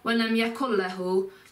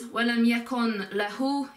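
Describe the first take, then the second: First: The N is dropped completely before the L. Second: The N is pronounced fully before the L. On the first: "But don't miss out the N altogether. So it's not walam yakun lahu" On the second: "while the actual word is walam yakun lahu"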